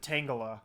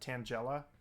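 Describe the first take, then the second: First: It begins like the word 'tangled'. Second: It sounds like the name Angela with a T. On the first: "like it's tangled up" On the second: "like Angela"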